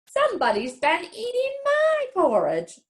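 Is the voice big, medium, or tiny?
medium. It is said in a medium-sized voice.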